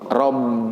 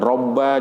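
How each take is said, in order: First: The word ends with an i vowel. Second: The word ends with an a vowel. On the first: The speaker calls it right. "tapi robbi" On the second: The speaker calls it wrong.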